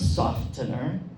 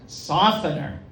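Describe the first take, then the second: First: The T sound is pronounced. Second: The T sound is silent. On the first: The speaker calls it wrong. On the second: The speaker calls it right.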